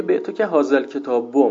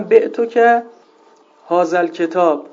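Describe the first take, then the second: First: الکتاب بو run together as "al-ketabu", ending in u; deliberate grammar slip, "ketab-bu" at the end; wrong case ending. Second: Said in the usual way. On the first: Shown as a demonstration. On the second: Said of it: "اعرابش رو اشتباه بگه".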